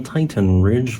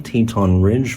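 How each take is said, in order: First: The first syllable has an 'eye' vowel. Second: The first syllable has an 'ee' vowel. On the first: The speaker calls it wrong. "that's not actually the pronunciation" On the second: The speaker calls it right. "it is pronounced the Teton Ridge volcano"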